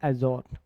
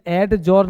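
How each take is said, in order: First: The d sound is left silent. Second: The d sound is clearly pronounced. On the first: The speaker calls it right. "एजॉर्न पढ़ते हैं" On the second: The speaker calls it wrong. "इसे एड जॉर्न नहीं पढ़ते"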